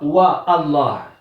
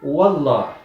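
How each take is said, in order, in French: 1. Un coup de glotte sépare wa de Allah. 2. Wa s'enchaîne directement sur Allah, sans coup de glotte. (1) "Il ne dit pas Wa Allah" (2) "il dit Wallah, quand c'est précédé par une autre lettre, je ne la prononce pas"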